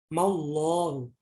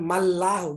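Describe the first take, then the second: First: The 'l' of Allah is pronounced thick. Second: The 'l' of Allah is pronounced thin. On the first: The speaker calls it right. "dibaca tebal atau tafkhim" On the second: The speaker calls it wrong. "bukan mallahu, bukan"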